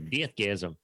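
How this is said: It is said in a New Zealand accent.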